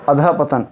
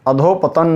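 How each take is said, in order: First: It has a breathy 'ah' after 'adh'. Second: It has an 'o' vowel after 'adh'. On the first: The speaker calls it right. "बल्कि अधपतन" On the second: The speaker calls it wrong. "अधोपतन नहीं"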